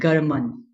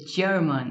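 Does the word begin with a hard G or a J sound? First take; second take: hard G; J sound. First: The word begins with a hard G sound. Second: The word begins with a J sound. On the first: The speaker calls it wrong. "we don't say German" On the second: The speaker calls it right. "we say German. It is giving me the sound of a J"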